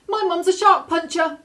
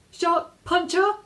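First: High, loud panicked shout at the shark; a girl shouting at a shark for protection. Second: High, slow, shaky repeat; a frightened girl repeating herself to a shark; trembling. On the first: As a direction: yell it out, eyes squeezed shut. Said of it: "the girl shouted". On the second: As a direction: say it again, scared but insisting. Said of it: "she repeated, trembling". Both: A narrator's reading.

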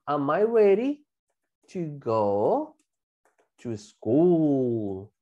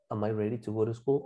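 First: "Am I ready", pause, "to go", pause, "to school"; piece-by-piece modelling. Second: Lower, softer run-through without pauses; whole connected sentence. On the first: Teacher adds more information for class, slow and segmented. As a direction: stretch out each chunk with pauses between. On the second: Teacher gives the whole question, low and connected. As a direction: say it in one breath, rising at "school". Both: Shown as a demonstration.

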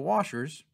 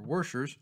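First: Said in the usual way. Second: "Warschers" with an added R sound; "Warschers", an R slipped into washers; extra R. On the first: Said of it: "or Warschers". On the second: Shown as a demonstration. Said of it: "with an extra R in the middle".

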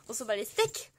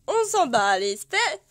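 First: Said in the usual way. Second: Louder, slower mock-dismissive "On s'en bat les steaks". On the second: Real, not acted. Waving off the Animal Crossing items to viewers, loud dismissive. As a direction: shrug it off loudly and slowly.

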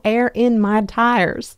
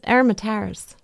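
First: "air in my tires" stretched out word by word; separated words. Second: "Aromatase", air-in-my-tires slurred into one word. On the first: Friend clarifying on the phone, "air in my tires" slow and separated. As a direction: say "air in my tires" slowly, each word distinct. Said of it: "She's like, "No, air in my tires". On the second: Host quoting her friend's words, "Aromatase" run together. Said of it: "she says". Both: Retold or imitated.

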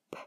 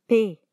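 First: P as a bare voiceless puff; short unvoiced "p" burst for P; letter sound P. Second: Said in the usual way. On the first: Shown as a demonstration. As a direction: pop the lips for P, no vowel.

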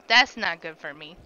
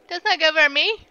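First: Said in the usual way. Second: "not" pushed higher and louder; stress on not. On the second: Acted. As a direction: lean hard on "not". Repeats line with new stress.

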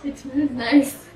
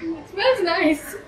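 First: Sarcastic. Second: Sarcastic, higher. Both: Pretend. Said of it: "fake praise of foul drink".

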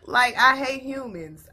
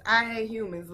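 First: Louder, slower and higher, fed up; exasperated declaration. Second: Said in the usual way. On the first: Real, not acted. Venting to viewers about the story, in a loud slow fed-up declaration. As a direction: hit it hard like you're done with everyone.

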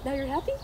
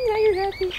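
First: Said in the usual way. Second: High, loud gushing at the dog; excited happy. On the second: Pretend. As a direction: cheer the dog up with playful glee. Gleeful repeat cheering up dog.

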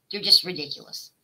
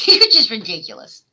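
First: Said in the usual way. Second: Said louder through a laugh; exasperated laughing repeat. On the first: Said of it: "repeated after laugh". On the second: Real, not acted. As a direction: laugh it out at her.

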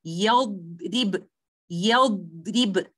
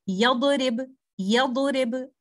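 First: Slow "yadrib", time given to the held dad; correct yadrib with rakhawa. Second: "yadrib" with the dad bounced short, like "yadorib"; wrong yadrib, no rakhawa. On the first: Tajweed teacher models giving time to letter dad, slow held dad in "yadrib". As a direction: hold the dad in "yadrib" without bouncing it. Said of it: "So I will say". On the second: Tajweed teacher shows students the mistake, "yadrib" with a bounced dad. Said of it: "I should not be saying". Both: Shown as a demonstration.

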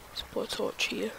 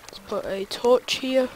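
First: Whispered under the breath. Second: Said in the usual way. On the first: Real, not acted. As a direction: mutter it voiceless to yourself.

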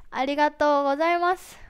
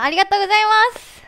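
First: Said in the usual way. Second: Quick, loud burst of thanks. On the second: Real, not acted. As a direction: shout thanks to the whole stage. (大きな声で勢いよく感謝)

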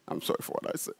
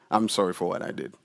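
First: Whispered I'm sorry for what I said; whispered apology. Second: Softer, lower apology; calm apology. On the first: Preacher acting the apology, whispering. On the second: Preacher acting the calm apology, softer. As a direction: say it gently, deflated. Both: Shown as a demonstration. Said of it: "So now I'm calm".

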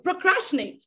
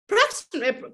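First: "procrastinate" said out in full; second try at "procrastinate", all syllables; word said fully. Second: "procrastinate" garbled and cut short; stumbled word. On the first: Vlogger retrying a hard word for her viewers, clear. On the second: Vlogger fumbling a hard word to her viewers, garbled. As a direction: trip over "procrastinate", half said. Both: Real, not acted. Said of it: "I can't even say it".

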